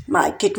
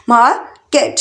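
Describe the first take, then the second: First: Said in the usual way. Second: market in two separate beats; split into syllables. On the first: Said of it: "market में भी टू syllable". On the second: Shown as a demonstration. Teacher counting out two syllables for learners, syllable by syllable. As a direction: pause between मार and केट. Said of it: "टू syllable".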